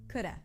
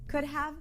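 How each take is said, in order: First: Said as coulda with a light flapped D. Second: Both words are said fully and separately.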